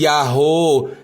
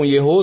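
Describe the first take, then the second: First: The first vowel is an a sound. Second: The first vowel is an e sound. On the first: The speaker calls it wrong. "Não tem nada de Yahô" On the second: The speaker calls it right. "tem um Shevá, é um E, som de E"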